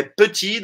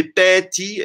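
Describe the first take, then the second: First: "petit" in two syllables, puh-TI; petit with schwa. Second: "petit" mispronounced as PEH-ti; petit with open E. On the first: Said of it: "como petit gâteau que vocês conhecem". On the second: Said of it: "não é petit". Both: Shown as a demonstration.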